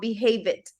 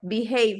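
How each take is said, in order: First: The ending adds an extra id syllable. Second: The ending is a plain d sound. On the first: The speaker calls it wrong. "not behave it" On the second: The speaker calls it right. "Behave, not"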